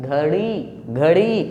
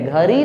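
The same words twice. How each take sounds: First: घड़ी with flicked ड़; half-strength ड in घड़ी; retroflex flap ड़. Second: घड़ी wrongly said as "ghari"; light tapped र replacing ड़ in घड़ी; mispronounced with र. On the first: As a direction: jerk the tongue down on ड़ in घड़ी. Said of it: "ये घड़ी है". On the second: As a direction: say घड़ी with no retroflex flick. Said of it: "घड़ी नहीं". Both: Shown as a demonstration.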